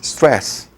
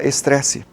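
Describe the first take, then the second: First: It begins and ends with a consonant. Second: It begins and ends with a vowel. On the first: "uma palavra em inglês" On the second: "Você põe um E, ... E você fecha com uma vogal"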